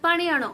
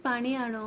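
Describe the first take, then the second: First: Demonstrated raised-voice order; a mild shouted command; mock shout. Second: Soft, falling gentle request; lower, softened polite request; said sweetly. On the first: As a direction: call it out as if annoyed. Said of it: "ମୁଁ ଚିଲେଇ କହିବି". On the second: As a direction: ask it sweetly, voice dropping. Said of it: "ତ ଗୋଟେ ସୁଇଟଲି ଗଲା". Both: Shown as a demonstration.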